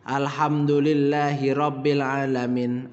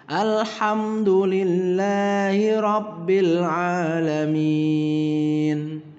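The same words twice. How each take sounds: First: Every vowel is said short. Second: Long and short vowels are mixed. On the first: The speaker calls it wrong. "Pendek semua" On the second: The speaker calls it right. "Ada panjang pendeknya"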